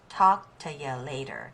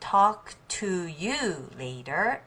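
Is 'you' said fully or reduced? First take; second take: reduced; full. First: The word 'you' is reduced to a quick 'ya'. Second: The word 'you' is said fully and clearly. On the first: "talk to ya later" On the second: "Instead of talk to you later"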